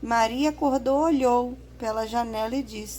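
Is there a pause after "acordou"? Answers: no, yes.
no. It runs on with no pause after acordou. The speaker calls it wrong. "se a gente não usasse a vírgula"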